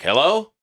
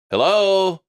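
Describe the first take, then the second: First: Higher, questioning hello with a rising end; prank phone greeting. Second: Much higher, louder second hello; insistent prank greeting. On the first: Recorded prank greeting fooling callers, questioning hello. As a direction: answer the phone as if someone is there. Fake answering machine greeting. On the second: Recorded prank greeting fooling callers, insistent calling hello. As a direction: call out as if the caller can't be heard. Fake answering machine greeting, repeated. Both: Retold or imitated.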